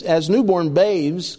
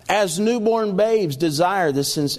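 First: "as newborn babes" said slowly, then a clear stop; slow down on "as newborn babes" and break off at the comma; pause at the comma. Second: Said in the usual way. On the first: Shown as a demonstration.

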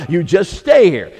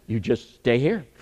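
First: Slower, louder, leaning hard on "stay"; emphatic repeat. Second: Plain. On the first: Preacher to congregation, repeating the point with stress on "stay". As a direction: press down on "stay", drawing the words out. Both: Shown as a demonstration.

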